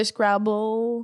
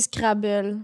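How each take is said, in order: First: "Scrabble" drawn out with English pronunciation; English accent. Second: The English word "Scrabble" said the French way; French accent. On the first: Showing the version she avoids, English accent on "Scrabble". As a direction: say "Scrabble" slowly as an English word. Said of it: "l'accent anglais". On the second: Explaining her own way of saying words, French accent on "Scrabble". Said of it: "je dis avec un accent français". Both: Shown as a demonstration.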